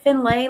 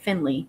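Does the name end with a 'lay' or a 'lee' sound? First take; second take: lay; lee. First: The name ends with a 'lay' sound. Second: The name ends with a 'lee' sound. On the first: "like how it looks" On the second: "like how somebody would normally say that name"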